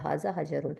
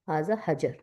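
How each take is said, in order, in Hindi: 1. आखिरी शब्द में -un का अंत है। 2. आखिरी शब्द में -un का अंत नहीं है। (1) "मैं आखिर वाला अ, इराब इसलिए पढ़ती हूँ ताकि आपको याद हो जाए" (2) "वरना हम आखिर वाला इराब नहीं पढ़ते"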